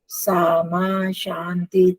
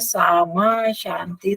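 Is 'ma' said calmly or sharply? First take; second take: calmly; sharply. First: The word 'ma' is said calmly, with svarita pitch. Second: The word 'ma' is said sharply, without svarita pitch.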